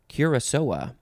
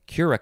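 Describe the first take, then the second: First: The second C sounds like an S. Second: The second C sounds like a K. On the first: "that little uh, accent under the C makes it a an S sound" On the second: "Otherwise, it would look like"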